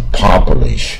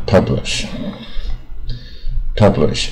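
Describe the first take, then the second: First: "publish" drawn out with an open "PAH"; mispronounced publish. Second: Said in the usual way. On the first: Shown as a demonstration. Teacher showing students what to avoid, "publish" with long ah. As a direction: stretch "publish" as PAH-bleesh. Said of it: "不要念成publish啊". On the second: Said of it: "出版跟一样啊".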